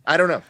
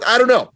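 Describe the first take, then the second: First: Said in the usual way. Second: "don't" much higher and louder, falling; exasperated outburst. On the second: Real, not acted. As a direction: cry out I don't know, half laughing.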